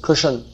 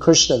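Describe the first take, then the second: First: A vowel is heard between sh and n. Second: The sh and n sounds come together. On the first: This is the everyday Hindi form. "they say Krishan" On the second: This is the full Sanskrit form. "Even Krishna"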